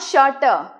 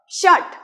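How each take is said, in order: First: The word ends with an added vowel sound. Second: The word ends sharply on the consonant. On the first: The speaker calls it wrong. "not shutter" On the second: The speaker calls it right. "This would be called shut"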